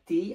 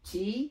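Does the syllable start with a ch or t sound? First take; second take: t; ch. First: The syllable starts with a t sound. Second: The syllable starts with a ch sound. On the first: The speaker calls it wrong. "এটা ভুল হবে" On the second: The speaker calls it right. "এটা হচ্ছে সঠিক"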